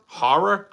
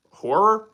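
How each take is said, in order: First: Higher, questioning "Horror", first syllable like "har". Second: Higher, questioning "Horror", first syllable like "or". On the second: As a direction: say "Horror" with a rounded OR vowel. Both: Shown as a demonstration. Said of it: "the way you said horror".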